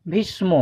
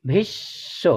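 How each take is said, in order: First: ভীষ্ম with a full ম at the end, rising; the mistaken ভীষ্ম; wrong pronunciation. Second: Softer corrected ভীষ্ম; correct pronunciation. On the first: Teacher showing pupils the common mistake, lightly. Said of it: "যদিও সেটা ভুল". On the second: Teacher giving pupils the right form, softly. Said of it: "এর সঠিক উচ্চারণ হবে". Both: Shown as a demonstration.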